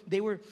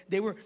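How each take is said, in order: Both takes have the same delivery.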